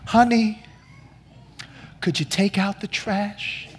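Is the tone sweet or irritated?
sweet. It is said sweetly and softly.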